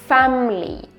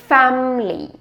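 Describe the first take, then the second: Both takes have the same delivery.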